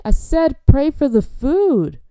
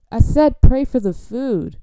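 First: Very slow, high, loud outburst; exasperated shout. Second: Loud, slow, higher repeat; exasperated order. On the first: Host fed up with fervent guest, exasperated drawn-out shout. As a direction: shout it drawn out over the praying. Final outburst over the praying. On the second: Host repeating the order to say grace, exasperated loud insistence. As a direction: insist loudly over the praying. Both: Acted.

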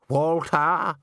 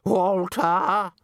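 First: Drawn-out call for someone. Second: Higher, more insistent drawn-out call. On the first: Missus Plinge calls for Walter on the empty stage, calling out. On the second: Missus Plinge calls Walter who has not come, insistently. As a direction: sing the name out high across a stage. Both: A narrator's reading. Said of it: "Her voice echoed around the empty stage".

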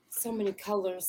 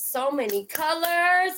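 First: Said in the usual way. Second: Slow, higher, drawn-out so many colors; dreamy delight. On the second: Retold or imitated. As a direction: savour so many colors slowly.

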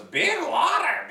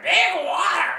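First: Very high, slow, stretched bird cry; squawky bird voice. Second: Very high squawk lifting at the end; squawky bird voice, rising. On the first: Podcaster imitating the gull calling for the sea, very high squawk. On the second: Podcaster repeating the gull's cry, very high and rising. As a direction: call it out again like a gull. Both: Retold or imitated. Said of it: "He goes".

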